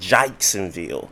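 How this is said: The first vowel is an 'ike'-like diphthong. The way locals from that city say it. The speaker calls it wrong. "they pronounce their acts with ikes"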